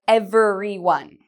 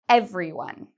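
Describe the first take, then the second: First: The word is said with four syllables. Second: The word is said with three syllables. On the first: The speaker calls it wrong. "They think it has four syllables" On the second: The speaker calls it right. "If you said three, you are correct"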